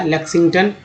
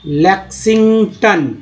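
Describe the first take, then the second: First: Said in the usual way. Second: लेक्सिंगटन said slowly, ending in a falling tone; teacher's slow pronunciation demo; slow model word. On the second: Shown as a demonstration. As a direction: sound out लेक्सिंगटन carefully with the last syllable as टन. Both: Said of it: "टी ओ एन को यहाँ टन बोला गया".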